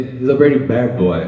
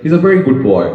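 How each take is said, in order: First: "He's a very bad boy" drawn out slowly, leaning on "very"; stress on very bad. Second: Said in the usual way. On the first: Shown as a demonstration. Teacher showing students how a wrong reading flips meaning, slow stressed delivery. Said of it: "मेरे कहने का मतलब आप यूं लेते हैं कि". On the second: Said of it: "जैसे मैं कहता हूँ".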